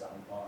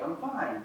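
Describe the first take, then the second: First: Low, soft, withdrawn denial; subdued brush-off; not really fine. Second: Easy, untroubled reply; casual reassurance; sincerely fine. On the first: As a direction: drop it low and quiet, clearly bothered. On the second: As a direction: say it lightly, as if all is well. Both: Shown as a demonstration. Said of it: "The tone and how it's said".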